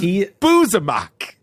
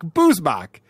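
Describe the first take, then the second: First: The name is said in three syllables. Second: The name is said in two syllables. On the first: The speaker calls it wrong. "He always says Boozamock" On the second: The speaker calls it right. "it's the word booze and mock"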